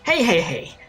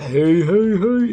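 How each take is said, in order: First: It is said in the speaker's normal voice. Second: It is said in a Fat Albert impression.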